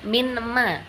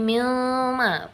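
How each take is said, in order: First: The consonant before ma is an n sound. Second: The consonant before ma is an l sound. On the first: "bukan minma" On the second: "Apalagi milma, bukan"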